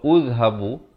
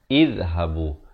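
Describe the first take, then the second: First: The word begins with a u vowel. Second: The word begins with an i vowel. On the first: The speaker calls it wrong. "pilih dengan baris dhammah, pilihan C juga salah" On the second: The speaker calls it right. "yang betulnya ialah izhabu"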